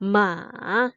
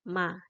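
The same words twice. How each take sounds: First: The pitch goes up and down. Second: The pitch is light and neutral. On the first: "Naik turun gitu ya" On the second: "membacanya adalah ringan saja"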